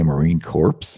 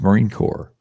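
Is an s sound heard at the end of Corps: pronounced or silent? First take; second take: pronounced; silent. First: Corps ends with a pronounced s sound. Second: Corps ends without any s sound. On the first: The speaker calls it wrong. "you don't say Marine Corps" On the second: The speaker calls it right. "The S is silent"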